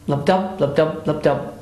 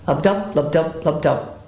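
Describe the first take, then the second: No difference in how they are said.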